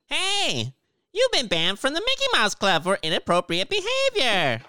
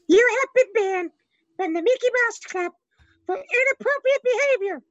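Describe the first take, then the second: First: It is said in a SpongeBob voice. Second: It is said in an Elmo voice.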